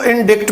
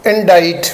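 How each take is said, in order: First: इंडिक्ट with the c sounded, like predict; mispronounced indict. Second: इंडाइट with silent c, ending like "-dite"; long i and no k in इंडाइट; correct indict. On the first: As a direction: say इंडिक्ट with a hard k before the t. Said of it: "पढ़ लिया जाता है". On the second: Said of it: "इंडिक्ट नहीं है". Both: Shown as a demonstration.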